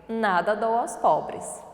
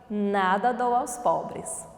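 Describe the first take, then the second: Both takes have the same delivery.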